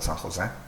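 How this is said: The name is said with a Spanish pronunciation. The speaker calls it wrong.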